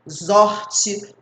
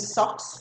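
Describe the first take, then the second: First: The word begins with a buzzing z sound. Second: The word begins with a hissing s sound. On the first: The speaker calls it wrong. "Ninguém vai ler assim" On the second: The speaker calls it right. "Vai ler com som de S"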